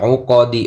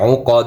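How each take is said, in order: First: The word ends with a short i vowel. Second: The word ends on the d consonant. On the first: The reading continues without a stop. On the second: The reader stops at the end of the verse.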